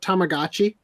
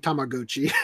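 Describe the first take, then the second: First: It is said with an American pronunciation. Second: It is said with a non-American pronunciation. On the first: "I'm not gonna give up the American pronunciation of" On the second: "this probably should be Tamagotchi"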